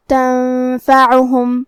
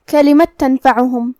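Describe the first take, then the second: First: تنفعهم said very slowly, the noon hidden with nasal ghunna; nasal ikhfa demo. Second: Said in the usual way. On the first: Shown as a demonstration. Teacher demonstrates ikhfa on تنفعهم, slow nasal ghunna. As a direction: draw out تنفعهم, hiding the noon in a nasal hum. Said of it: "نون ساکن کو چھپائیں گے اور غنہ کے ساتھ". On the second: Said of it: "یہاں نون ساکن ہے".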